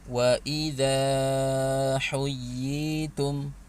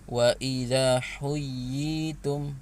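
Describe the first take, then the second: First: The vowel in idza is stretched very long. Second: The vowel in idza is cut very short. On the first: "itu udah kepanjangan" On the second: "nah itu nggak dibaca panjang"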